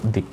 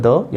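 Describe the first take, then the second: First: "the" as "dee"; "the" said "dee", as before a vowel; strong "the". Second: "the" as short "duh"; "the" clipped to "duh", as before a consonant; weak "the". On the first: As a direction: say "the" with a long ee. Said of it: "या फिर". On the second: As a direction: say "the" with a schwa. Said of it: "तो ये होता है". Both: Shown as a demonstration.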